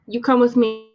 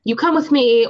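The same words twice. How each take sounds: First: Bad heavy Russian accent. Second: Louder heavy Russian growl, hitting come; mock Russian werewolf threat, louder and pushier; bad heavy Russian accent. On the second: The werewolf bouncer threatens Augustus in a louder, heavier Russian accent. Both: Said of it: "in my bad heavy Russian accent".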